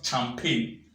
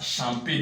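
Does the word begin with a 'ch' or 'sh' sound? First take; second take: ch; sh. First: The word begins with a hard 'ch' sound. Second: The word begins with a soft 'sh' sound. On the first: The speaker calls it wrong. "not champagne" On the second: The speaker calls it right. "The same pronunciation you go with shampoo. This word is pronounced as champagne"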